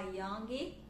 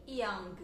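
First: Put-on young said as "youngi", extra i vowel after the g; young with a Brazilian final vowel added; wrong extra vowel. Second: Put-on young ending cleanly on the g sound, no added vowel; young said the English way, closing on the g; correct ending. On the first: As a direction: pronounce young badly, adding an i syllable at the end. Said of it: "a gente não coloca essa vogal no final". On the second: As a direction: stop young right on the final consonant. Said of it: "terminar com esse som da consoante mesmo". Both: Shown as a demonstration.

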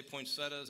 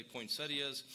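First: "poinsettias" said as poin-SET-uhs; poinsettias without the i. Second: "poinsettias" said as poin-SET-ee-uhs. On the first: Pastor showing the congregation his own way, "poinsettias" ending -tuhs. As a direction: say "poinsettias" ending in plain -tas, three syllables. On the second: Pastor showing the congregation the other way, "poinsettias" ending -ee-uhs. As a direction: say "poinsettias" with an extra ee before the ending. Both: Shown as a demonstration. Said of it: "some people say poinsettias".

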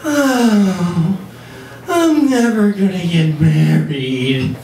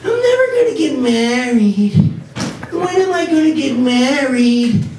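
First: Mimicking girlfriend. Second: Much higher, whiny lovelorn woman voice; mock the heroine's wedding angst; Sex and the City heroine. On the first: Boyfriend imitating girlfriend's wedding hint, mock-wistful. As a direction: drop a hint with a dramatic sigh. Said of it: "She'll go like". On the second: Comic mocking the show's heroine, whiny high voice. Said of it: "kinda goes like this".

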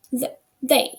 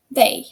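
First: Slow teacher demo of "the, they" with the tongue tip between the teeth for TH. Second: "they" said once more with a clear voiced TH, tongue between teeth. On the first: Teacher models TH for class, careful slow demo. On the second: Teacher repeats TH word for class, firm clear demo. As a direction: repeat "they" firmly so students copy the TH. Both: Shown as a demonstration. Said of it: "ми язик ставимо між зуби".

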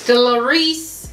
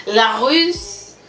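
First: "La Russe" said as English "lo ris"; hesitant anglicised "La Russe" with "ris" ending; unsure English try. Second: "La Russe" with French "la" and "us" ending; French-style "La Russe", "la ... us". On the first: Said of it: "I can't pronounce this in freaking English". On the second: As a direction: give "La Russe" a French "la", then "us". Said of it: "I'ma just say it in French". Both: Shown as a demonstration.

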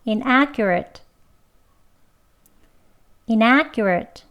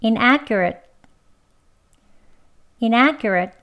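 First: Inaccurate with a tense kk sound. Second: Inaccurate with kk and the tongue tip held at the end; tense kk, then hold the t. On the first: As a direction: say inaccurate with a tight kk. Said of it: "된 소리로 두 번". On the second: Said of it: "혀 붙이고요". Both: Shown as a demonstration.

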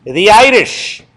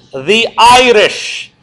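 First: Said in the usual way. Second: "The Irish" stretched long and slow, falling at the end; drawn-out answer. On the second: Shown as a demonstration. Teacher answers his own question to the class, drawn out. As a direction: drag out the answer for emphasis.

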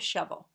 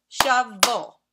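First: Said in the usual way. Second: "Shovel" in two loud, separate beats; "Shovel" split firmly in two; syllable by syllable. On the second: Shown as a demonstration. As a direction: clap out "Shovel", punching each syllable. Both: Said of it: "as we say them, let's clap".

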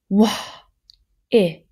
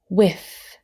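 First: "Wah" then "if", each part separate and loud; sounded out. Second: Said in the usual way. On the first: Shown as a demonstration. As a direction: split "whiff" into "Wah" and "if". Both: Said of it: "Now listen carefully to this one".

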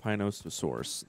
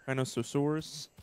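First: "Pinososaurus" as a firm statement, falling at the end; decided "Pinososaurus", pitch dropping to finish; settled pronunciation. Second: "Pinososaurus" as a question, higher and rising; tentative, raised-pitch "Pinososaurus?"; questioning pronunciation. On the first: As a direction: settle on "Pinososaurus" with a downward close. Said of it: "That's how we're gonna say it". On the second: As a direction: try out "Pinososaurus", unsure it is right. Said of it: "Is that how you say?". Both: Real, not acted.

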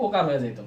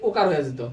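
No difference in how they are said.

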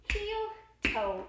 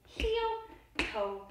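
The two takes are said the same way.

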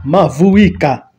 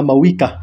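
First: Mavuika said slowly as ma-vu-WEE-ka with a clear v; drawn out, careful Swahili Mavuika with each syllable sounded; Swahili pronunciation. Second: Mawika said as ma-WEE-ka, the v dropped; the common wrong take, Mawika without the v; wrong pronunciation. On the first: Swahili speaker correcting the name, slow careful Mavuika. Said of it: "As a Swahili speaker". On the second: Kenyan reactor mimicking the wrong name, Mawika without v. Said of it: "I wish they stopped calling her Mawika". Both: Shown as a demonstration.

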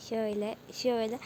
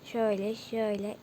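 No difference in how they are said.

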